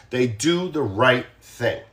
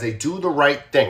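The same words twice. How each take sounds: First: "They do the right thing" slow, each word weighted; slow emphatic. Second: Said in the usual way. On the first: Shown as a demonstration. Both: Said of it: "I just wanna be very, very clear".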